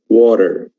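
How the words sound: It has an American accent with a soft d-like t. "But in American English, it's water"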